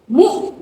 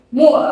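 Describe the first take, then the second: First: The syllable sounds clean without rasp. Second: The syllable has a slight snoring rasp. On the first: The speaker calls it right. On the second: The speaker calls it wrong.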